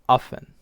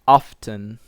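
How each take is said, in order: First: The t sound in the middle is dropped. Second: The t sound in the middle is pronounced. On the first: "the person drops the t sound" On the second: "instead of saying often"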